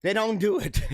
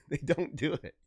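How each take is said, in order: First: Said in the usual way. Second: Softer, lower, through laughter; laughing. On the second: Real, not acted. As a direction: crack up while insisting. Cracks up repeating the claim.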